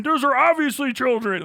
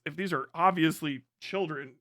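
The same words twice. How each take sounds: First: Higher, louder whiny insistence on "obviously"; mock accuser. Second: Said in the usual way. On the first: Mimicking accusers' voice, higher and louder. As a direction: parody the outraged commenter, pushing "obviously". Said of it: "People are like". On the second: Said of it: "Like, well, first off".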